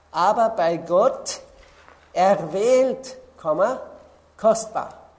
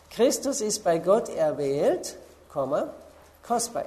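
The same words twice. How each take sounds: First: Aber bei Gott erwählt, Komma, kostbar read slow and much louder, each word hammered; emphatic verse reading. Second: Said in the usual way. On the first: Shown as a demonstration. Preacher reading the verse aloud to the congregation, loud and emphatic. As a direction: lean hard on erwählt and kostbar, louder, with a pause after each. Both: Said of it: "das zweite Wort erklärt das erste".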